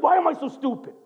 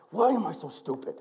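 First: Self-reproach. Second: Said in the usual way. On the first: Retold or imitated. Husband berating himself in the mirror, mildly raised. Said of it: "Looks in the mirror like". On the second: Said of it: "he just goes".

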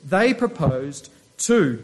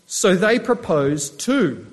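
First: They lifted and stressed, the rest slow. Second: Proposed two read slowly, stress on two; slow scripture reading. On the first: Preacher explaining who they are, stressing They. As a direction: lean on They to say who proposed. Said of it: "So they is the hundred and twenty believers". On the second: Preacher reading the verse aloud, slow and deliberate. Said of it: "Look, it says". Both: Shown as a demonstration.

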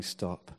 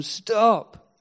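First: Much lower and softer stop; silent stop. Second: High, loud cry of stop; shouted stop. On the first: The voice that never came, a low faded stop. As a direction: let the word die away. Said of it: "there was no voice saying". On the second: Imagined angel crying out from heaven, a high loud shout. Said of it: "cry out of heaven". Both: Retold or imitated.

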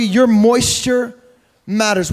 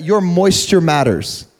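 First: "your moisture" said slow and higher, then "matters" dropped; stress on your moisture. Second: Said in the usual way. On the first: Shown as a demonstration. Preacher repeats the point to the church, slow stress on "your moisture". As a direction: lean on "your" and stretch "moisture". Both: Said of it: "repeated for emphasis".

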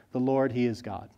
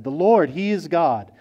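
First: Hushed echo. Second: Awed proclamation. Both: A narrator's reading. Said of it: "they fell on their faces and said".

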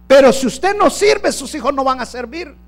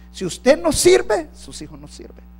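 First: A preacher pressing the point home, loud; forceful preached line. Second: Usted no sirve dragged very slowly, then sus hijos no sirven whispered; slow it right down and drop to a whisper at the end; a pastor restating the warning, slow then hushed. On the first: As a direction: proclaim it to the whole church. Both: Shown as a demonstration. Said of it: "¿Estuvo mal dicho?".

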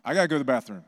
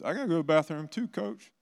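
First: Put-on louder, flatter kid demand, falling; insistent kid. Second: Put-on high, fast pleading kid voice, rising at the end; whiny kid. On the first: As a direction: another kid pushing to leave, a touch louder. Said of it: "Three more hands went up". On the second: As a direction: mimic a kid begging to leave class. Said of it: "And then a couple other kids".

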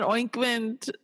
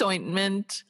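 First: "oinkment" with a nasal oink at the start. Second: Said in the usual way. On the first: Shown as a demonstration. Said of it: "Sometimes they call it oinkment". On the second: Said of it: "but it's ointment".

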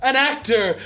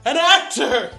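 First: Hammed-up grand declaration, higher and louder; mock theatrical boast about being an actor; mock grandeur. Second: Even higher, louder, theatrical actor voice; topping the last take with grander theatrics; hammed-up thespian. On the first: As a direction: proclaim yourself a great actor. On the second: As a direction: go full stagey luvvie. Mock-grand claim to be actor.

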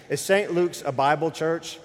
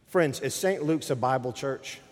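First: Raised, higher challenge to the room; mic-check repeat. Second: Said in the usual way. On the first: Real, not acted. Preacher re-asking an unresponsive congregation, raised and insistent. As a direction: ask it louder, pressing for an answer. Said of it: "Is this microphone on? Check, one, two". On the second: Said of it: "Is this microphone on?".

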